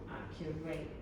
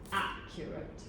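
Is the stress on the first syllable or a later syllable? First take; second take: later; first. First: The stress is on a later syllable. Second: The stress is on the first syllable. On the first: The speaker calls it wrong. "not accurate" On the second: The speaker calls it right. "the word accurate has the accent on the first syllable"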